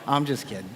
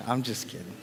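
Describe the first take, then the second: First: Said in the usual way. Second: Quiet afterthought repeat; softer trailing repeat. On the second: Shown as a demonstration. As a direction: drop it away, much softer.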